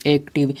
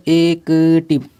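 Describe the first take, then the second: First: Said in the usual way. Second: "एक्टिव" drawn out as e, k, tiv; slow teacher's breakdown of "एक्टिव"; sounded out slowly. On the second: Shown as a demonstration. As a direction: stretch and separate the sounds of "एक्टिव". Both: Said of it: "इसको मिला के जब पढ़िएगा".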